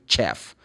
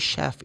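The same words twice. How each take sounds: First: It begins with a hard 'ch' sound. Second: It begins with a soft 'sh' sound. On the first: The speaker calls it wrong. "you don't say chef" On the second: The speaker calls it right. "You say chef"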